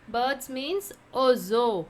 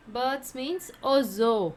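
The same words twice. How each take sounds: The two takes are said the same way.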